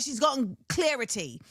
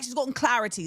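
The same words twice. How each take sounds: First: CLARITY said like "clear-ity"; put-on British "clarity" with "clear" at the start; British accent attempt. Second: CLARITY with an open "clah" vowel, British style; British "clarity" starting "cla", not "clear"; British accent. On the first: Praising the British rapper, CLARITY said as "clear-ity". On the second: Shown as a demonstration. Showing how they say it, British-accented CLARITY with open vowel. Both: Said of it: "That's actually how they say it".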